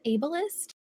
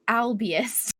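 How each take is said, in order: First: The word is said as 'ableist'. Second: The word is said as 'albius'. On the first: The speaker calls it right. "Is it ableist?" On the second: The speaker calls it wrong. "because I want to say albius. I know that's wrong"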